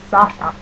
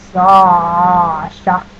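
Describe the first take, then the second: First: "Sasha" shorter, without the long held vowel; regular-name Sasha. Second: "Sasha" loud, with a very long first vowel; drawn-out Sasha. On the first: Showing which one is the regular name, "Sasha" said short and unexaggerated. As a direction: say "Sasha" compactly, not stretched out. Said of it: "is my regular name". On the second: Showing which one is the username, "Sasha" loudly drawn out. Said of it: "There is a distinct difference". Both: Shown as a demonstration.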